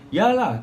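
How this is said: It is said in a confident tone.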